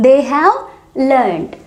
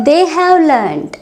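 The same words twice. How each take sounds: First: Said in the usual way. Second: They have learned drawn out slowly for learners; deliberate teacher pacing; slow model phrase. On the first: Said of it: "teacher repeats at normal pace". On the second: Shown as a demonstration. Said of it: "teacher models then repeats".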